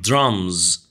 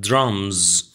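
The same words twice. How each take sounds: The two takes are said the same way.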